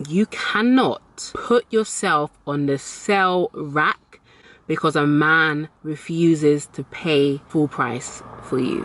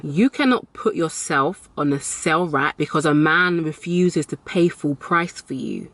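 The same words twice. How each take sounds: First: Slowed right down, each word weighted; slow emphatic repeat. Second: Said in the usual way. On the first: Shown as a demonstration. Repeating her key line to expensive women, slow and weighted. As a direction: say it slower so it sinks in. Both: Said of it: "I'll say that again".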